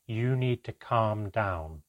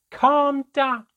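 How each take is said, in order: First: Slow, measured instruction to calm down; unruffled, deliberate, patient command; even and controlled. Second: Very high, loud, shrieked retort; explosive high-pitched yell of fury; outraged scream. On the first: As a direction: say it evenly, drawing out each word. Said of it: "he replied as evenly as ever". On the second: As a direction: scream it back in disbelief. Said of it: "My mother began to scream". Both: A narrator's reading.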